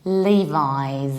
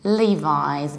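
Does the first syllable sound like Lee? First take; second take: Yes; Yes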